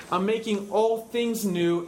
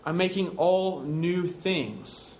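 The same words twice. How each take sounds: First: Slow, deliberate "all things new"; stress on word order. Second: Slow "all new things" as the wrong version; contrastive word order. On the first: Preacher shows precise word order, "all things new" stressed. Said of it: "the word order here seems to be precise". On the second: Preacher contrasts rejected wording, "all new things" stressed. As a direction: set out "all new things" deliberately, falling at the end. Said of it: "and not". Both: Shown as a demonstration.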